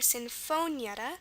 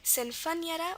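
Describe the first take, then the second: First: The O is said as a long O. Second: The O is said short and reduced.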